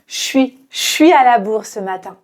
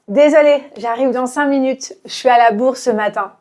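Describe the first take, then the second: First: Quick, relaxed everyday delivery; casual natural speech. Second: Fast casual. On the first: Teacher shows learners a natural, quick, casual delivery. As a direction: toss it off fast like real life. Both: Shown as a demonstration. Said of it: "de manière très naturelle".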